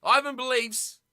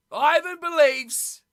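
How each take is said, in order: First: Said in the usual way. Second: Slow, louder, leaning on "Ivan believes"; drawn-out, mock-proud "Ivan believes"; emphatic repeat. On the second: Shown as a demonstration. Repeats chat message emphatically.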